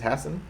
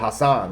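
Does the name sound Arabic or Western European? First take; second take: Western European; Arabic. First: The name has a Western European-sounding pronunciation. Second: The name has an Arabic-sounding pronunciation.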